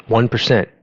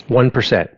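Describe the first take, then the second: No difference in how they are said.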